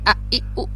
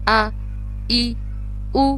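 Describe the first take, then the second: First: The vowels are cut off with a hard jolt. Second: The vowels are short and only lightly clipped. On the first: The speaker calls it wrong. "ऐसे झटका नहीं देंगे" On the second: The speaker calls it right. "इसको पढ़ने का तरीका है"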